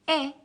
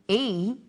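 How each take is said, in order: First: It is a short vowel sound. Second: It is a long vowel sound. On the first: "firstly the short vowel sounds" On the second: "Then the long vowel sounds"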